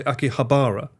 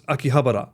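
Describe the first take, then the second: First: Akihabara with a long, stressed BAR; questioned pronunciation. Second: Akihabara with HA stressed, short quick ba-ra; expected pronunciation. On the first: Retold or imitated. Streamer quoting how others say it, Akihabara with long BAA. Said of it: "Is that pronounced correctly?". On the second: Shown as a demonstration. Streamer giving own version, Akihabara with short ba-ra. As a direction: say Akihabara as aki-HA-ba-ra. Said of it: "I always thought it was".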